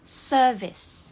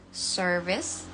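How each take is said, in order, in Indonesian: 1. Bunyi r tidak dibaca. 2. Bunyi r jelas dilafalkan. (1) "Kalau British service" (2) "Jadi kalau dalam American R-nya tetap dibaca service"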